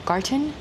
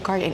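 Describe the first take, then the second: First: It is said slowly with a clear t sound. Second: It is said fast with a d sound.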